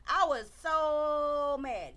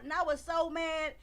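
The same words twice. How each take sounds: First: "I was so mad" drawn out slowly, every word weighted; slow right down and lean on each word of "I was so mad"; slow emphatic repeat. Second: Said in the usual way. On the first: Real, not acted.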